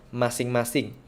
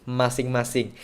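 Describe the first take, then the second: Both takes have the same delivery.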